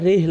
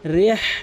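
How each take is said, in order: First: The h sound is light and breathy. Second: The h sound is deep from the throat. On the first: The speaker calls it wrong. "ছোট হা আইনে উচ্চারণ করে" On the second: The speaker calls it right. "বড় হা হচ্ছে হলকের মাঝখান থেকে"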